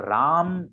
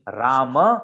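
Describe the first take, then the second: First: The word ends on the consonant m sound. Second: The word ends with a short a vowel. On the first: The speaker calls it wrong. "वो गलत उच्चारण है" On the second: The speaker calls it right. "ये सही उच्चारण है"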